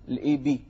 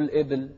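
First: The b is followed by an i vowel. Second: The b has no vowel after it. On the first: The speaker calls it right. "الباء مكسورة" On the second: The speaker calls it wrong. "مو الإبل"

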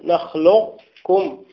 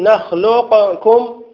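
First: The q keeps its heavy quality without bouncing. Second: The q is released with a bouncing echo. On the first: "بإبقاء التفخيم والاستعلاء في القاف دون قلقلتها" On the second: "تقلقل وهذا لم يفعله أحد"

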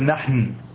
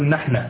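First: The word ends in a consonant, no vowel. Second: The word ends with a final a vowel. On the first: "لم أقل نحن" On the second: "وهو عند اللبنانيين مبني على الفتح"

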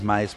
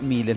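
First: The name is read like the English name. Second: The name is read with Spanish vowel sounds. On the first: The speaker calls it wrong. "no es Miles, porque no tiene que ver con Davis" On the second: The speaker calls it right. "Se pronuncia Miles"

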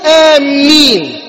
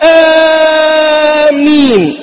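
First: The m sound is doubled and held. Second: The first vowel is stretched well beyond two beats. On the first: "لا تقولها آمين بتشديد الميم" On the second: "لا تمد هذا المد الأول أكثر من حركتين"

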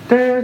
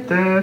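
First: The syllable is said on a high pitch. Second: The syllable is said on a medium pitch. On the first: It signals the top row. "a high tone for the top" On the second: It signals the middle row. "a medium tone for the middle"

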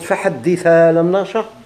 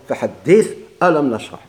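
First: The glottal stop's vowel merges into the previous word. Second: The glottal stop before alam is kept. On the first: "هذا النقل" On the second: "هذا إبقاء"

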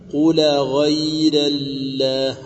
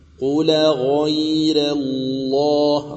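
First: The L in Allah is light and thin. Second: The L in Allah is heavy and thick. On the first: The speaker calls it wrong. "والخطأ أن تقرأها" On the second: The speaker calls it right. "رققت الراء وغلظ اللام"

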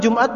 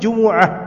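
First: The word is said with two syllables. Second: The word is said with three syllables. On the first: The speaker calls it wrong. "Kita bilang Jumat tuh salah" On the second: The speaker calls it right. "apa sebenarnya Jumu'ah"

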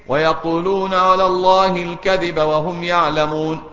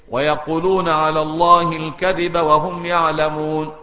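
Both takes have the same delivery.

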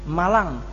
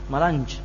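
First: The word ends in a plain 'ng' sound. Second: The word ends in a 'nj' sound. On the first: This is the normal local pronunciation.

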